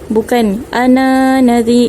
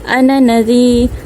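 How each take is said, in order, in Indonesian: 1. Vokal akhir dari ana panjang. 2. Vokal akhir dari ana pendek. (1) "itu salah" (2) "kita baca pendek"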